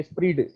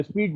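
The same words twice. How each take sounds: First: स्पीड said with an r after the p, "spreed"; correct pronunciation, spread. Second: स्पीड said like "speed", without an r; mispronounced as speed. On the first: Teacher corrects the reading for students, स्पीड with an added r. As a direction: roll a clear r into स्पीड, like "spreed". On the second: Teacher shows students the misreading, स्पीड with no r. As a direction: say स्पीड with p running straight into a long ee. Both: Shown as a demonstration. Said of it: "इसको स्पीड नहीं पढ़ते".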